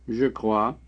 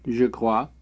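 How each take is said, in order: Both takes have the same delivery.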